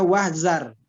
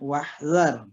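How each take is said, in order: First: The middle consonant is a hard 'z' sound. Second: The middle consonant is a soft 'dh' sound. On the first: The speaker calls it wrong. "Jangan kita baca wahzar. Kalau kita baca wahzar jadinya eh, zai" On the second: The speaker calls it right. "dia lembut"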